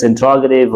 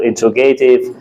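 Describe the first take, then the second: First: "interrogative" as in-TROG-uh-tiv; standard pronunciation. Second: "interrogative" as in-tro-GAY-tiv; common mispronunciation. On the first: Teacher asking which is right, "interrogative" as in-TROG-uh-tiv. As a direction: stress the ROG in "interrogative", short unstressed "ga". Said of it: "how to pronounce the word". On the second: Teacher asking which is right, "interrogative" as in-tro-GAY-tiv. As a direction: stress a long GAY in "interrogative". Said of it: "people pronounce interrogative". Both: Shown as a demonstration.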